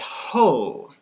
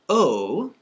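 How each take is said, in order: First: The vowel is said with an h before it. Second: The vowel is said with no h before it. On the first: The speaker calls it right. "we say ho" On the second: The speaker calls it wrong. "instead of just saying O"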